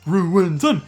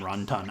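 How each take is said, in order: First: The name is said in full, all syllables. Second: The name is said squeezed into fewer syllables. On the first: The speaker calls it right. "I said it correctly" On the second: The speaker calls it wrong. "I just say Runtun because I talk really fast"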